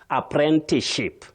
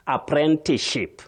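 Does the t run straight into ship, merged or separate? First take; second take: merged; merged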